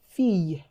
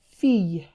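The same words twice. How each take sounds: Both takes have the same delivery.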